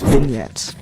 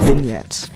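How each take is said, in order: First: The g in the middle is silent. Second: The g in the middle is silent.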